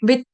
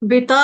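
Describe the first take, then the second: First: The word ends on a bare t sound. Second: The final t carries a full vowel after it. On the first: The speaker calls it right. "त पूरा नहीं है" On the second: The speaker calls it wrong. "बिता बोलने से क्या कर दिया, त पूरा कर दिया"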